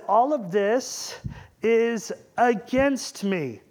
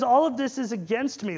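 First: Slow, drawn-out mock lament. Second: Said in the usual way. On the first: Jacob laments to his sons, slow and drawn out. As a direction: stretch each word out like a weary old father. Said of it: "He says". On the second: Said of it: "he says".

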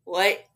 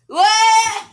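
First: Said in the usual way. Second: High, loud shriek of disbelief. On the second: Pretend.

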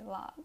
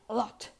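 First: "a lot" stopped with no puff of air; unreleased T. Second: "a lot" with a strong puffed T; released T. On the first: Teacher showing American English, "a lot" with held T. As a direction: hold the T in "a lot". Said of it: "you don't pronounce the T strongly". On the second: Teacher showing the wrong way, "a lot" with hard T. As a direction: pop the final T in "a lot". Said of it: "You don't say a lot". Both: Shown as a demonstration.

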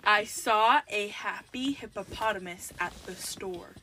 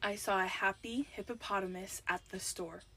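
First: Measured repeat for someone who can't hear. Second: Low-key, quiet delivery to a headphone wearer; soft first take. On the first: Repeats slower for headphone wearer. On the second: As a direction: say the phrase softly and evenly. First, softer take of game phrase. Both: Real, not acted.

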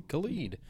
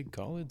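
First: Khalid said kuh-LEED, the first syllable weak; Khalid, the stress landing on LEED; Khalid with stress at the end. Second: Khaled said KAH-lid, stress on the first syllable; Khaled, the first syllable stressed and open; Khaled with stress up front. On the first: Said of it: "some say Khalid". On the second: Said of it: "Some say Khaled, some say Khalid". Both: Shown as a demonstration.

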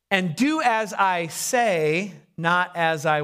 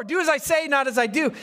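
First: Drawn-out, deliberate instruction; slow, pointed. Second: Quicker, higher mock retort; high-pitched retort. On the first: Acted. Elder excusing himself to younger person, slow and pointed. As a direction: stretch out each word and leave it hanging. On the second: Preacher mimicking what everyone has said, high retort. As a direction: toss the saying out high, in one go.

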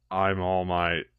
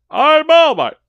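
First: Low, quiet hero in everyday form; All Might, normal form. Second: High, loud heroic boast; All Might. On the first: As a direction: say the hero's name small and low. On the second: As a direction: proclaim the hero's name at full voice. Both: Acted.

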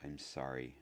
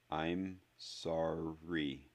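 First: Low-key hoarse apology, softer. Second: Very slow, forced-out apology; syllable by syllable. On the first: Harry apologizing once more to hurt Neville, hoarse. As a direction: say it softly, voice gone hoarse. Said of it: "his voice now hoarse". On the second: Harry forcing an apology out to Neville, syllable by syllable. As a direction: push each syllable out separately. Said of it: "produce each syllable individually". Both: A narrator's reading.

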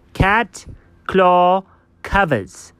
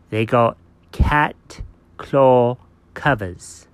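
First: Emphatic repeat. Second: Slow, lower, word-by-word announcement; slow reveal. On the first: Dog repeating it for a baffled friend, slow emphatic delivery. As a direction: repeat "cat claw covers" word by word, insistently. You heard me. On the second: Dog revealing what the cat got, slow portentous delivery. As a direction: spell out "cat claw covers" with big pauses. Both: Pretend.

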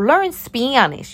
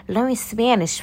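First: "Learn Spanish" slow, stretched and higher; drawn-out emphasis. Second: Said in the usual way. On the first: Shown as a demonstration. First take, exaggerated, then repeated.

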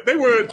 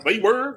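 First: A hint of West Country accent, higher and louder. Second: A hint of West Country accent, higher and rising. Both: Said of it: "I'm talking like one now".

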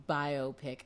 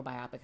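First: "biopic" said as BYE-oh-pick; first pronunciation of biopic. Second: "biopic" said as bye-OP-ick; alternative pronunciation of biopic. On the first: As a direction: say "biopic" as bio plus pick. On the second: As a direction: stress the middle of "biopic", rhyming with topic. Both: Shown as a demonstration. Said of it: "however you say it".

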